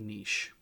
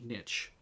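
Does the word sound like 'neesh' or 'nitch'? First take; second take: neesh; nitch. First: It sounds like 'neesh', ending in an 'sh' sound. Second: It rhymes with 'itch', ending in a 'ch' sound. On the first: The speaker calls it right. "I say niche" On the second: The speaker calls it wrong. "I don't say niche. ... if it was niche, it would be N I T C H"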